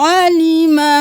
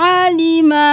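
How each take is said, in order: No difference in how they are said.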